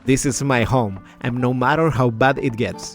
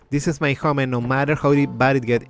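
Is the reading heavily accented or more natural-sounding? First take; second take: natural; accented. First: It is read with more natural, native-like endings. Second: It is read with a heavy untrained foreign accent. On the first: The speaker calls it right. "the way that I want to to pronounce this" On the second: The speaker calls it wrong. "if I was to pronounce this like badly, like without zero no training"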